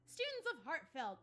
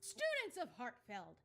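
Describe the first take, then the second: First: It is said in a normal voice. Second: It is said in a put-on manly voice.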